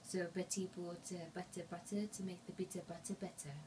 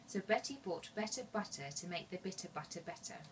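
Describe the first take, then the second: First: It is said in a French accent. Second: It is said in a native English accent.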